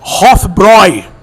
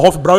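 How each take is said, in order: First: The final vowel sounds like 'oy' in 'boy'. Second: The final vowel sounds like 'ow' in 'cow'. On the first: The speaker calls it right. "tem um trema no A e a pronúncia é Hofbräu" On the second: The speaker calls it wrong. "O pessoal fala Hofbrau erroneamente"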